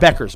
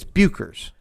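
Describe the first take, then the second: First: The name is said as 'Beckers'. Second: The name is said as 'Buchers'. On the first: This is how an announcer kept saying it. The speaker calls it wrong. "Kept calling her Paige Beckers" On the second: This is the name's real pronunciation. The speaker calls it right. "It's Buchers. Plain and simple"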